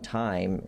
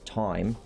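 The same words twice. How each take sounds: First: Time is said with a standard vowel. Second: Time is said with a local Nova Scotian vowel. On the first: "It's not time" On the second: "how they say time out here"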